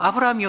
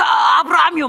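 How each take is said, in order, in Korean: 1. 이름을 차분하게, 다급함 없이 부릅니다. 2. 이름을 절박하고 다급하게 외칩니다. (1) "이렇게 부르진 않았을 거예요" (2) "막 이렇게 불렀을 겁니다. 굉장히 절박하고 간절하게"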